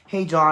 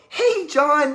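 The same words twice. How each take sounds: First: It is said in a flat, robotic way. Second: It is said in an overly excited way.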